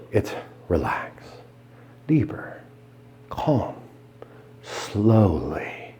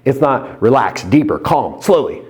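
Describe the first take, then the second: First: Softer, breathy trance words; hypnotic whisper. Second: Said in the usual way. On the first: Shown as a demonstration. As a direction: breathe each word out slowly. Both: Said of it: "Now remember".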